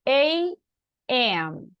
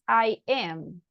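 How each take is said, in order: First: The first letter is said as 'ay'. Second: The first letter is said as 'eye'. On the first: The speaker calls it right. "be careful with the pronunciation. A M" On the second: The speaker calls it wrong. "sometimes I listen to some people saying I am"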